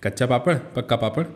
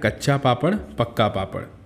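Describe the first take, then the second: First: The phrase is said quickly, as a rapid tongue twister. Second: The phrase is said at a moderate reading pace.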